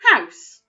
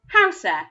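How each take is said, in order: First: The word ends with no added vowel sound. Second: The word ends with an added 'eh' sound. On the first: The speaker calls it right. "I didn't make any sound for that last letter" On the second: The speaker calls it wrong. "what other sounds that eh, the letter E, makes"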